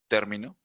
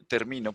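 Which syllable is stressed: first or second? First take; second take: first; second. First: The stress is on the first syllable. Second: The stress is on the second syllable. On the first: "o el acento en la antepenúltima, como hábito, término" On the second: "los lleva en el medio y es ah, llana"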